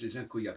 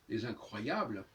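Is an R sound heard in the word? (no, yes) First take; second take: no; yes. First: The word is said without its R sound. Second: The word is said with its R sound. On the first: This imitates a group that refused to pronounce R. "ils ne voulaient pas prononcer le R en français" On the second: This is the ordinary form. "au lieu de dire les incroyables"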